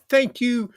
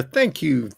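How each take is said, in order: First: A bigger, brighter echo of Thank you; higher, emphatic thanks. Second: Said in the usual way. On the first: Shown as a demonstration. Thanking viewers again, pitched up. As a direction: Thank you lifted high on Thank, falling at the end. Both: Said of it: "Just like that guy said there".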